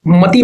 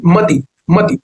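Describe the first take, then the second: First: मति with a stretched final "tee"; long-vowel mispronunciation. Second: मति with a brief "ti"; quick, light ending on मति; short final i. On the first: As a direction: show the wrong long ee in मति. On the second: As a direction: keep the last i of मति short. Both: Shown as a demonstration. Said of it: "मति नहीं".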